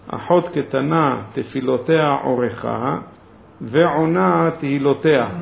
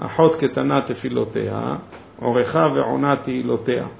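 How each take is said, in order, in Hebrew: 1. ההפסקה הראשונה באה מיד אחרי 'orkha'. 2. ההפסקה הראשונה באה מיד אחרי 'tefiloteha'.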